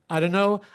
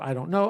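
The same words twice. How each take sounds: First: The words blur together, like dunno. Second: Do and not merge into don't. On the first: "is now reduced to" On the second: "is contracted to I don't know"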